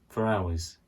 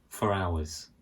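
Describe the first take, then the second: The two takes are said the same way.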